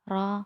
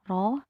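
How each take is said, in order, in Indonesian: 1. Vokal setelah r berada di antara o dan a. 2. Vokal setelah r terdengar seperti o yang jelas. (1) "tetapi ro antara O dan A" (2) "tidak dibaca O, tidak biro"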